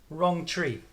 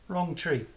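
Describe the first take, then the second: Both takes have the same delivery.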